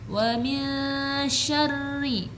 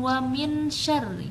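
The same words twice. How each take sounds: First: The n is hidden in a nasal hum. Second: The n is pronounced clearly. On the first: The speaker calls it right. "dibaca dengan samar dan dengung" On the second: The speaker calls it wrong.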